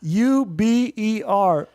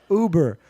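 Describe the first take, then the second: First: U B E R spelled out one letter at a time, slowly. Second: Said in the usual way. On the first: Retold or imitated. Host mimics his own ad read, spelling U B E R slowly. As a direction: say each letter of U B E R slowly, like reading an ad. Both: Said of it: "His commercial reads are also great unintentional comedy".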